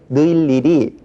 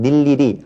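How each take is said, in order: First: The first vowel is the diphthong ui. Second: The first vowel is a plain i. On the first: The speaker calls it wrong. "이걸 억지로 느일일이 자 이렇게 발음할 필요는 없고" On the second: The speaker calls it right. "그냥 닐일이 하면 되겠죠"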